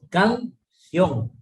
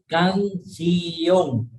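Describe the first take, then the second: First: The i and o glide together in one syllable. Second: The i and o fall in separate syllables. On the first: The speaker calls it right. "es canción, es bisílaba" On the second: The speaker calls it wrong. "mucha gente lo separa"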